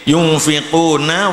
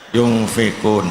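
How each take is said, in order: First: The word ends with a final vowel sound. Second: The word ends on a consonant, vowel dropped. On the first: The reading continues without stopping. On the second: The reader stops at this word.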